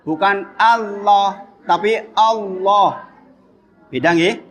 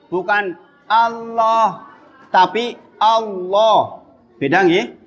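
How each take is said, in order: No difference in how they are said.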